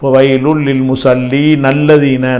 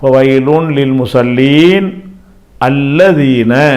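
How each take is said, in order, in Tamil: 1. ஒரே மூச்சில், நிறுத்தாமல் சேர்ந்து ஓதப்படுகின்றன. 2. musallin-க்குப் பின் நின்று, பிறகு புதிதாகத் தொடங்கும். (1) "ஒரு மூச்சில் இதையும் சேர்த்து படிச்சிங்கன்னு சொன்னால்" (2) "நான் ஒத்த ஒத்தையாக தான் படிக்க போகிறேன்"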